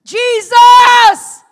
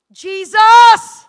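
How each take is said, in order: First: Even higher, full desperate shout; second anguished shout; crying out again. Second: Desperate full shout of the name; anguished shout of Jesus; crying out Jesus. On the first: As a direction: call out louder the second time. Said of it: "And I cried out again". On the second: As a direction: cry out to him with everything. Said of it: "I just cried out". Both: Retold or imitated.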